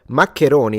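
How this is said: It is said with an Italian pronunciation. "is how we pronounce it"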